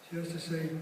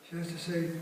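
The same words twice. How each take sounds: Both takes have the same delivery.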